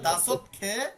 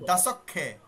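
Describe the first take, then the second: First: A separate t is heard before the k. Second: The t drops and the k is doubled. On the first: The speaker calls it wrong. "তখন আর দাসত খেয়ে এভাবে আসে না" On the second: The speaker calls it right. "পরের মূল বর্ণ দুইবার উচ্চারিত হবে"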